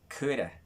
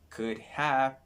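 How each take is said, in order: First: The words are run together into a contraction. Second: Each word is said fully and separately.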